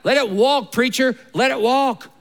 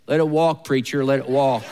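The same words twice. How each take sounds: First: It is said with enthusiasm. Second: It is said without enthusiasm.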